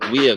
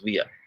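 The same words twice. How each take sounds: First: It is said with a standard Lao sound. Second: It is said with a Vietnamese-like sound.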